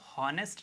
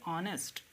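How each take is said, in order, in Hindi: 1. यह शब्द h की आवाज़ से शुरू होता है। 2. यह शब्द स्वर से शुरू होता है, इसमें h नहीं है। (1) "इसको हॉनेस्ट नहीं कहेंगे" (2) "इसे हम कहेंगे ऑनेस्ट"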